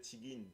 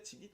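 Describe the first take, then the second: First: Tigin said with a nasal n ending instead of t; the way he really says it, Tigin with an n; own form Tigin. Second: Tigit said crisply with a clear final t; the intended word Tigit, ending on a sharp t; meant form Tigit. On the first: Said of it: "mais je dis Tigin". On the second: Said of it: "je veux dire Tigit". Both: Shown as a demonstration.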